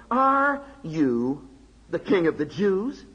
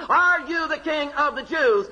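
First: "Are you the king of the Jews?" read slowly, leaning on "are"; stress on the question. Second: "are you the king of the Jews?" fired off fast, hitting "are"; a governor cutting straight to it, "are" stressed; blunt question. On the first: Shown as a demonstration. Preacher reading the governor's question slowly, leaning on "are". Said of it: "Did you note accent?". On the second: Retold or imitated. Preacher acting Pilate's blunt question in the back room, "are" stressed. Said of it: "yanks him into the back room and says".

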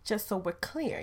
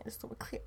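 First: Said in the usual way. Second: Whispered repeat; a soft whispered just so we're clear. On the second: Shown as a demonstration. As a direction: breathe it as a whispered aside.

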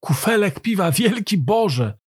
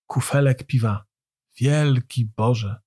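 First: High, admiring outburst; amazed exclamation. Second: Slow, hushed-down marvelling; lowered, lingering wonder; subdued awe. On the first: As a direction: exclaim it in raised, awestruck wonder. Amazed listener exclaims the refrain. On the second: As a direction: repeat it slowly, lost in admiration. Listener repeats refrain in awe. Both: A narrator's reading.

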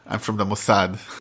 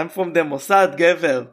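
First: Put-on slow, heavy Israeli accent in English. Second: Put-on Israeli accent, tough guy swagger. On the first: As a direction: drawl it like an Israeli agent. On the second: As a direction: say it like a cocky Israeli agent. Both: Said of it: "הלוואי ויהיה אחד במבטא ישראלי".

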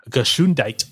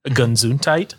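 First: Gesundheit with German sch sound, gə-SHOON-dait; German pronunciation. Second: Said in the usual way. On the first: Shown as a demonstration. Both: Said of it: "is from the German".

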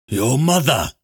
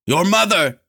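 First: Lightly gasped exclamation, a little high. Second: High-pitched desperate cry; scream. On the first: Lanlo, just dropped to the ground, gasps lightly. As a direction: gasp it out, catching breath. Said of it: "Lanlo gasped, trying to catch his breath". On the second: Lanlo screams out before Lorn lets go, high scream. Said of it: "he screamed out". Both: A narrator's reading.

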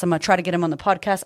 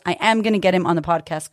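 First: Said in the usual way. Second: "am" pressed firmly, the rest quick; stress on am. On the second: Shown as a demonstration. To listeners, correcting herself, stressing "am". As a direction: lean hard on "am" to make it certain.

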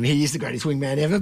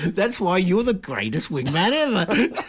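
First: Plain, meant-it praise; sincere. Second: Slow words through laughter; laughing. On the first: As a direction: say it and mean it. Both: Real, not acted. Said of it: "that one wasn't sarcasm".

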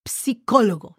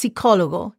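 First: Psicólogo with the P clearly sounded before the S; forced P sound. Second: Psicólogo said as sicólogo, the P dropped; silent P. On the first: Teacher showing students psicólogo with the P forced out. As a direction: pronounce every letter of psicólogo, starting with a crisp P. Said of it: "That's the way it would sound if you force it". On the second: Teacher showing students how psicólogo is usually said, silent P. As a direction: say psicólogo the everyday way, beginning on the S. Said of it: "most people just pronounce psicólogo, just regular".

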